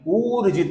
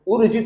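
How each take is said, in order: First: The first vowel is long. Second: The first vowel is short. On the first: The speaker calls it right. "दीर्घ उ है" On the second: The speaker calls it wrong. "उ नहीं है, तो ऊर्जित नहीं है"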